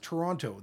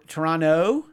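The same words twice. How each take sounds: First: The t sound in the middle is pronounced. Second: The t sound in the middle is dropped. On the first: The speaker is not from there. The speaker calls it wrong. "If somebody says Toronto, they're not from there" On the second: The speaker is from there. The speaker calls it right. "You don't pronounce the T"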